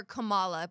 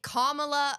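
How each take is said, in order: First: Kamala stressed in the middle, kuh-MAH-luh; pronunciation contrast. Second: Kamala stressed on the first syllable, KAH-muh-luh; pronunciation contrast. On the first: Asking friends which way the name goes, Kamala stressed mid-word. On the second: Asking friends which way the name goes, Kamala stressed up front. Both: Shown as a demonstration. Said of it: "you both have been saying it differently".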